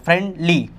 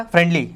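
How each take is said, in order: First: friendly broken into friend and lee; segmented friendly for a learner; drawn out in two. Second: friendly run together quickly; fast, unsplit friendly; all in one go. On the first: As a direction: say friendly in two separate beats. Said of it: "आपको दो बार खींचना पड़ा इसको". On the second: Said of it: "एक बार में". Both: Shown as a demonstration.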